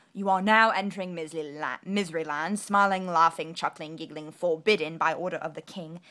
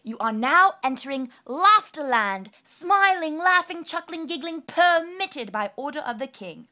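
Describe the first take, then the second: First: Loud, heavy proclamation of a ban; stern, loud public notice; gloomy sign. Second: Much higher and louder, bright proclamation; gleeful loud decree; joyful sign. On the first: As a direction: read the decree like a grim herald. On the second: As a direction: announce it like a festival herald. Reading the new happy sign. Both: A narrator's reading.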